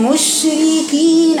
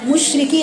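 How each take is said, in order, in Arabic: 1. كل حرف مفصول بوضوح من غير ما تقف عليه. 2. الحروف متلاصقة ببعضها من غير فصل واضح. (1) "أنا فصلت في بين المخارج من غير ما أقف على حرف الشين" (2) "أنا ما بينتش الفصل بين المخارج"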